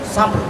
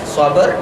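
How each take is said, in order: First: The b and r join with no vowel between. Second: An extra vowel is inserted between b and r. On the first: The speaker calls it right. "dia matikan" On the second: The speaker calls it wrong. "kalau sabar, eh, sabar, jadi dia bunyi sabar"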